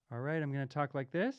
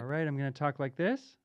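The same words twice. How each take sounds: First: Quieter and faster, run through an EQ; EQ-filtered voice. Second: Softer and faster, run through an EQ; EQ-filtered voice. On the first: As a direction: talk as the filter thins the sound out. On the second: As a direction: talk as the filter shapes the sound. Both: Shown as a demonstration. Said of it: "dip to a little bit more bassy".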